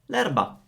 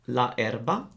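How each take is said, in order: First: The a of la is dropped. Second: The a of la is fully pronounced. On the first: The speaker calls it right. "we say" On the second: The speaker calls it wrong. "instead of saying la erba"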